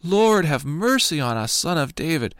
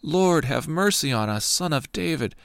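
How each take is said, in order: First: Crying out louder. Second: Raised, higher plea for mercy; crying out. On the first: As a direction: call out over the crowd trying to hush you. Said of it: "they cried out all the more". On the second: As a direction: call out to him from the roadside. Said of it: "they cried out". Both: A narrator's reading.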